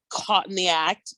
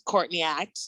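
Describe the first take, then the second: First: "caught in the act" said as separate words, no r in "caught"; pun spelled out. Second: "Courtney act" with a clear r in "Courtney"; name side of pun. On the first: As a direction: say "caught" with an open vowel and no r. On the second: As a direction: say "Courtney" as COURT-nee, r sounded. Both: Shown as a demonstration. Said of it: "the pun that it's".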